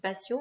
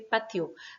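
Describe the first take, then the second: First: The t is pronounced like an s. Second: The t is pronounced as a t. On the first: This is the French pronunciation. The speaker calls it wrong. "en français, on dit patio" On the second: This is the Spanish pronunciation. The speaker calls it right. "Le T se prononce T"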